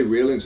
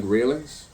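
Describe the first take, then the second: First: Railings said as reelings, a long ee sound; odd vowel. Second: Railings said as ray-lings, a clear ay sound; ay vowel. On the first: Musing on how a word sounds, railings said as reelings. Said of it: "it sounds like railings". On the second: Musing on how a word sounds, railings said as ray-lings. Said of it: "When you say railings". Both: Shown as a demonstration.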